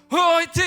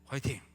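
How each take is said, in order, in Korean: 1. 과하고 오버스러운 목소리로 해요. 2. 약간 낮춘 목소리로 차분하게 해요. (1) "너무 오버스럽고 너무 부자연스럽고 너무 과하고 그런 목소리" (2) "목소리 조금 약간 깔고 화이팅 이렇게 하면서 이렇게 딱 이렇게 가면 멋있잖아요"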